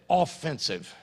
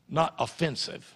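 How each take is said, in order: First: The stress is on the first syllable. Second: The stress is on the second syllable. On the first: Taking the attack, going forward. The speaker calls it right. "Notice how I said it" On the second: Insulting or causing offence. The speaker calls it wrong. "Two different words spelled the same way"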